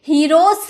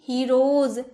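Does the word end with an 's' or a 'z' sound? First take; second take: s; z. First: The word ends with an s sound. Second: The word ends with a z sound. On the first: The speaker calls it wrong. "हीरोस नहीं" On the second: The speaker calls it right. "ज में sound निकलेगा"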